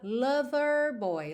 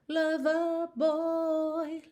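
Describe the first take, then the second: First: American accent, with the R in lover pronounced. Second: British accent, with no R and a lengthened vowel.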